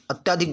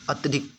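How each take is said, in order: First: अत्यधिक as "at-yaa-dhik", middle vowel lengthened; wrong pronunciation. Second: अत्यधिक as "at-ya-dhik", short middle vowel; correct pronunciation. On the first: Teacher rejecting the faulty form, अत्यधिक said wrongly with long "yaa". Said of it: "गलत होता है". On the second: Teacher answering what is correct, अत्यधिक said with short "ya". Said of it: "शुद्ध क्या बनेगा?". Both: Shown as a demonstration.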